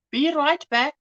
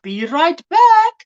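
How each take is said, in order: First: Said in the usual way. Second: Higher, louder and slow, stretching out BACK; drawn-out call. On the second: Acted. To the viewers before stepping away, a slow drawn-out call. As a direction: call it out long as you leave the viewers.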